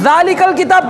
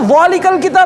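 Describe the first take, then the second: First: The first consonant is light and thin. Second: The first consonant is heavy and thick. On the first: The speaker calls it right. "ये जाल तो बारीक होगी" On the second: The speaker calls it wrong. "बहुत लोग जाल को मोटा पढ़ते हैं"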